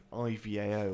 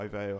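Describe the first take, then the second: First: I V A O said letter by letter; spelled-out letters. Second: I V A O run together as one word, "eye-vay-oh". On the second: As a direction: pronounce I V A O as a word, not letters. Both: Shown as a demonstration. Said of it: "however you wanna say it".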